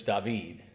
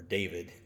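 First: Said in the usual way. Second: David said the Spanish way, dah-VEED, lower and softer; David pronounced dah-VEED, stress on the last syllable; Spanish pronunciation. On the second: Shown as a demonstration. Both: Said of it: "or David".

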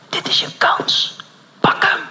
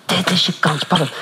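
First: Slow unvoiced whisper. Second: Said in the usual way. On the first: Holy Spirit urging the pastor, slow whisper. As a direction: breathe it out slowly as an inner voice. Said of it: "tot je fluistert". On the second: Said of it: "Ik zei ook al".

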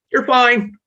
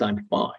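First: High, loud brush-off; dismissive parent. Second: Expressionless. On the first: Dismissive parent to a crying child, loud high brush-off. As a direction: wave the child's pain away. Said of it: "they're sitting there going". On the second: Unemotional parent's blank face, soft and expressionless. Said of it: "it has no emotional expression". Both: Retold or imitated.

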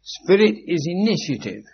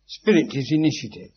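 First: Spirit punched high and loud as a proclamation; emphatic statement. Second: Said in the usual way. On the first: Shown as a demonstration. Lecturer drilling a key point into students, forceful. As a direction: ring out "Spirit is initiative" like a decree. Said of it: "Sentient energy is spirit".

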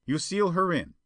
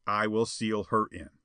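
First: Higher-pitched character voice; prompting schemer. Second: Firm assent. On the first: Perona tells Spawn to lock Jetta in, prompting. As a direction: prompt the accomplice in high voice. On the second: Spawn agrees to lock Jetta in, firm. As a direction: answer with settled resolve. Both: A narrator's reading.

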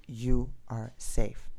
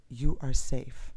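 First: Slow command. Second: Calm voice. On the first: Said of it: "it seemed like even a command". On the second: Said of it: "I heard somebody say to me". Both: Retold or imitated.

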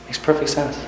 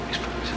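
First: Said in the usual way. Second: Whispered echo. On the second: Acted. Echoed much softer.

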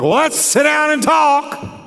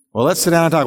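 First: Much higher, shouted "Well, let's sit down and talk". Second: Said in the usual way. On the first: Shown as a demonstration. Pastor showing spouses the wrong volume, shouted. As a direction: yell the invitation angrily. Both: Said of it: "the volume you use".

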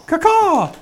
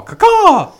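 First: High, strained parrot squawk; chirping bird person. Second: Very high, loud parrot caw; chirping bird person. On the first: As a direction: caw it with a bird timbre. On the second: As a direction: screech it like a bird. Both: Acted. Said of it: "you gotta give him his call".

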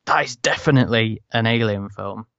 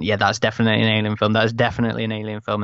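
First: Measured delivery with weight on "definitely"; emphatic retold verdict. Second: Rattled off quickly, imitating eager fans; fast, repeated quoted assurance; quick retold conviction. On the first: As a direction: punch the word definitely as a firm verdict. The verdict after trailer comes out. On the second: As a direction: run it together as a quick quoted reaction. Acting out fans before the trailer.

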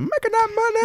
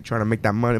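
First: High silly voice; sing-song echo. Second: Said in the usual way. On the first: Pretend. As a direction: squeak it out playfully. Echoing money line in silly voice.

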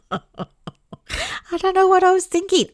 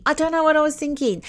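First: High, slow words through a laugh; laughing at herself. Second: Said in the usual way. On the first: Real, not acted. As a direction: laugh it out at your own silliness. Laughing at past self.

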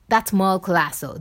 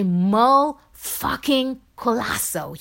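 First: Said in the usual way. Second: Name drawn out slowly, higher, with FUCKING punched; awestruck emphasis. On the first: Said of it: "don't only say". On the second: Retold or imitated. Imagined fans hailing the inspirational podcaster, slow awed emphasis. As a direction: savour each word of "Merle fucking Colasso". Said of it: "They say".

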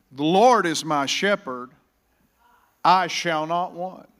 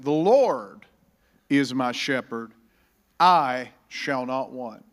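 First: Louder, slow, emphatic proclamation; preaching. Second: Slow, emphatic proclamation, LORD hit loud; preaching proclamation. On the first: Pastor repeating the verse louder to rouse the church. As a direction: build it up and drive it home. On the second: Pastor proclaiming the verse to the church, emphatic and slow. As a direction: lean on every word, slowing to the end. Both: Acted.

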